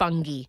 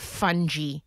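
First: Fungi is said in a non-American way. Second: Fungi is said in an American way. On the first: The speaker calls it right. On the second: The speaker calls it wrong.

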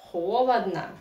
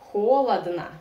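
First: The unstressed vowels are reduced to an 'a' sound. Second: The same.

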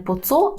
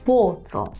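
First: The stress falls on the word co. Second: The stress falls on the word po. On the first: The speaker calls it wrong. "Не поцо" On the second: The speaker calls it right. "а поцо"

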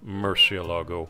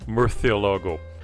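First: The word is said with southern Spanish pronunciation. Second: The word is said with Castilian Spanish pronunciation. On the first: "the southern Spanish pronunciation" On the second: "In the Castilian Spanish, spoken in most of Spain, the word is pronounced"

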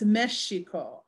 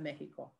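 First: The middle consonant is an 'sh' sound. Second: The middle consonant is a harsh throat sound. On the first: This is the older pronunciation. "So early on it's Mexico" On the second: This is the modern pronunciation. "as the pronunciation changes, it changes to Mexico"

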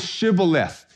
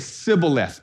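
First: The word begins with an sh sound. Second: The word begins with a plain s sound. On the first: The speaker is not from Ephraim. The speaker calls it right. "Say Shibboleth" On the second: The speaker is from Ephraim. The speaker calls it wrong. "the guy would say Sibboleth"

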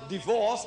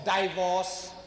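First: It is said with a usual English pronunciation. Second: It is said with a local, non-standard pronunciation.

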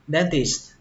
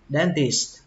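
The two takes are said the same way.

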